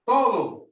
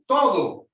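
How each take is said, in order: First: It is said crisply, with Spanish vowels. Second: The same.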